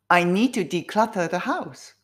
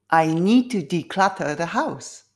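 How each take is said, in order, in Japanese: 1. この文は速いペースで話されています。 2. この文は中くらいのペースで話されています。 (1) "スピードアップすると自分の声のトーンも変わりますね" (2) "少しずつスピードアップ"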